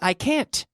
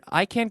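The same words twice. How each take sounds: First: The final T sound is clearly pronounced. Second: The final T sound is dropped. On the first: The speaker calls it right. "You have to stress that sound" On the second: The speaker calls it wrong. "Where's the T?"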